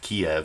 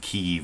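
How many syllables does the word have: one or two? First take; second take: two; one. First: The word is said as two syllables. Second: The word is said as one syllable. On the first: This is the older, habitual way to say the city's name. The speaker calls it wrong. "instead of Kiev" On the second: This is the newer, preferred way to say the city's name. The speaker calls it right. "start saying Kiev"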